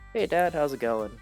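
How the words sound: It is said in a gentle, caring way.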